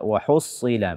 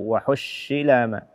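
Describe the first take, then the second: First: The s-sound is a heavy emphatic s. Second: The s-sound is a sh sound. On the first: The speaker calls it right. "Tapi bacalah dengan sad" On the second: The speaker calls it wrong. "atau shin"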